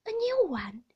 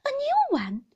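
First: Nurse announcing. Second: Very high, loud startled question; alarmed squeal of a question; shocked echo. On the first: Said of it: "said Peggotty". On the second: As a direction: repeat it in a child's disbelief. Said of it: "I repeated". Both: A narrator's reading.

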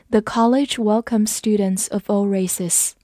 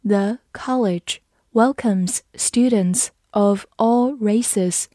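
First: Said in the usual way. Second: Slow, word-by-word model reading; slow read-along. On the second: Shown as a demonstration. Teacher reading for learners to follow, slow and measured. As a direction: read slowly with small gaps between words. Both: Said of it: "好，跟着我慢读一遍".

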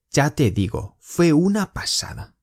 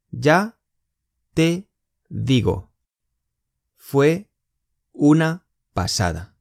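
First: Said in the usual way. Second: Slow, each word split apart. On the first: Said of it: "teacher says phrase whole". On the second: Shown as a demonstration. Teacher to students, every word said apart. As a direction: break the phrase into single words. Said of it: "teacher splits phrase word by word".

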